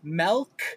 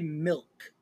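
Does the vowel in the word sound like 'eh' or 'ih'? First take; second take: eh; ih. First: The vowel sounds like 'eh', as in 'melk'. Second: The vowel sounds like 'ih', as in 'milk'.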